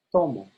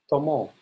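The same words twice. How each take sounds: First: TO of "Tomo" strong, mo falling away; stress on first syllable. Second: "tomo" with weight on the final mo; stress on last syllable. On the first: Teacher contrasts right with wrong, TO stressed in "Tomo". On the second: Teacher shows what not to say, MO stressed in "tomo". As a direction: push MO in "tomo". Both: Shown as a demonstration.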